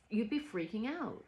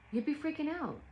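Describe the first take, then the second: First: Said in the usual way. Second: You'd be freaking out pitched higher, pressed hard; emphatic repeat. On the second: Real, not acted. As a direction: say it again, higher and insistent.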